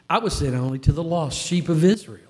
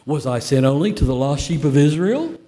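First: It is read in a plain, neutral voice. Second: It is read with a Jewish-style questioning inflection.

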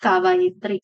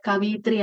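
First: The second syllable has the vowel a. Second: The second syllable has the vowel i. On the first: The speaker calls it right. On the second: The speaker calls it wrong. "കവിയിത്രി അല്ല"

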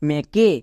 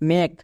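First: A vowel sound is pronounced after the final k. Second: The word ends on the k with no vowel. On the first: The speaker calls it wrong. "আমি একে মেকে বলছি না" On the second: The speaker calls it right. "তাহলে কী দাঁড়াবে M A কে মেক"

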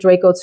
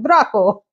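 First: The name is said with an English pronunciation. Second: The name is said with an Italian pronunciation. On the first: "I guess you can pronounce it Draco too" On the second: "what I think is maybe an Italian pronunciation"

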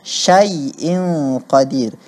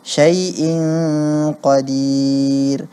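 First: The vowel sounds like an open a. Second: The vowel sounds like an e. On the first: The speaker calls it right. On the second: The speaker calls it wrong. "kedengaran fathahnya menjadi e"

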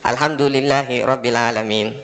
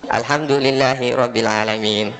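No difference in how they are said.

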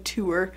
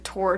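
First: The word rhymes with sewer. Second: The word does not rhyme with sewer. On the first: The speaker calls it right. "Like a sewer" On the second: The speaker calls it wrong. "I've always said tour wrong"

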